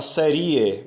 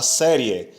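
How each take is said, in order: First: "série" with a closed e, ie split apart; wrong pronunciation. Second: "série" with an open é and ie joined; two syllables, "série", ie as a diphthong; correct pronunciation. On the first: Teacher showing the mistaken three-syllable "série". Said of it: "você não fala série". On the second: Teacher modelling the right "série" for students. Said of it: "você fala série". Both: Shown as a demonstration.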